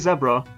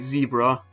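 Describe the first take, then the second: First: Zebra is pronounced the British way. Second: Zebra is pronounced the American way. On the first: "Brits say zebra" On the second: "this is supposed to be America and he's supposed to say zebra"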